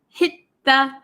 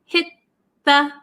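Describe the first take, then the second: Both takes have the same delivery.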